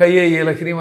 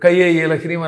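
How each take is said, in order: First: The ka and e are joined by a 'y' sound. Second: The same.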